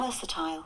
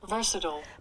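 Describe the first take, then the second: First: It is said with a British accent. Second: It is said with an American accent.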